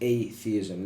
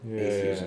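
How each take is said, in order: First: The word begins 'ay' followed by 'theism'. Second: The word begins with a short 'ath' sound. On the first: The speaker calls it right. "It's just adding an a prefix" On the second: The speaker calls it wrong. "not atheism"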